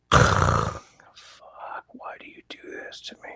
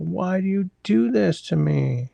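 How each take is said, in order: First: Exasperated breathy whisper under breath. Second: Slow, higher, drawn-out exasperated plea. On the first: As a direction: whisper it in despair. Exasperated at chat jumping back. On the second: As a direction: plead with the screen, drawn out. Repeats complaint, drawn out. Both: Real, not acted.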